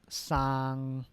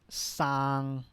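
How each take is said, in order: Both takes have the same delivery.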